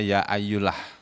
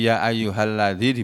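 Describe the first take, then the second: First: The 'ha' sound is dropped entirely. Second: The 'ha' sound is clearly pronounced. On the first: The speaker calls it wrong. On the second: The speaker calls it right.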